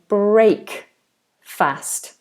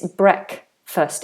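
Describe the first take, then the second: First: The second syllable has a full, clear vowel. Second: The second syllable's vowel is almost silent. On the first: The speaker calls it wrong. "notice that I don't say break fast" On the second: The speaker calls it right. "It's almost like that A doesn't exist"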